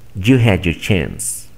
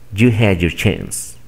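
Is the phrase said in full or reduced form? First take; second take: reduced; reduced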